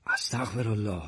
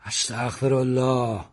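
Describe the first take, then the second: First: Said in the usual way. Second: Loud. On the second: A narrator's reading. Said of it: "با صدای بلند گفت".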